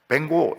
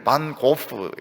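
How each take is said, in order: First: It is said as a blended 'Baeng-go'. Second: It is said as Korean 'Ban Gohp'. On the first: The speaker calls it right. "영어로는 그래 안 하더라고요. 뱅고 이렇게 부르더라고요" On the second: The speaker calls it wrong. "우리는 이제 반 고프, 이래 고호를 고프 이렇게 하는데"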